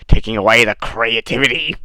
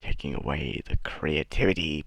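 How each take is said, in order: First: Loud, raised put-on voice; loud mock outcry. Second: Low put-on voice; put-on mocking voice. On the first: Vlogger repeating the creativity complaint, loud mock outcry. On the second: Vlogger mimicking a complaint about creativity, low voice. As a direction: drop low into a mock character voice.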